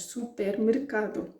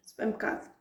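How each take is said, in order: First: "supermercado" with every syllable said; over-careful "supermercado"; wrong full form. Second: "supermercado" fast with the middle vowels swallowed; reduced native "supermercado"; native reduction. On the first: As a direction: pronounce "supermercado" fully, each vowel clear. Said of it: "nós não dizemos supermercado". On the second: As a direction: clip "supermercado" quick, hit the K. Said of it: "dizemos supermercado". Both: Shown as a demonstration.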